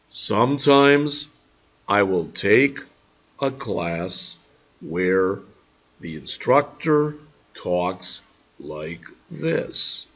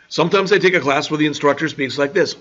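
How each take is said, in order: First: It is said slowly. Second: It is said fast.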